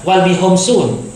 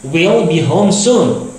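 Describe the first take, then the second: First: WILL said like "wall"; mispronounced contraction. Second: Slow, with WILL said as "wee-ol"; WILL as "wi-ol", phrase drawn out; corrected contraction. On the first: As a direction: misread WILL as "wal", with an open a. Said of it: "salah malah". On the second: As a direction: say WILL as "we'll", gliding into the l. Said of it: "seperti ini dibaca will". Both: Shown as a demonstration.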